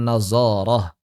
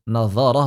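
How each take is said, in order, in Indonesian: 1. Huruf tengahnya bunyi z biasa. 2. Huruf tengahnya bunyi dh emfatik. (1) "Dho ini dibaca zai terus" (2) "Nazarah bukan nazarah"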